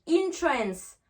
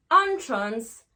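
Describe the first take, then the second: First: Entrance begun with "in", drawn out; slow entrance with a clear "in"; "in" first syllable. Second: Entrance begun with "on", louder; loud, open "on" to start entrance; "on" first syllable. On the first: Teacher recapping the verb envoûter, "in" in entrance. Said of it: "on va faire le son in". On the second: Teacher recapping the noun entrée, "on" in entrance. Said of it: "on va faire le son en". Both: Shown as a demonstration.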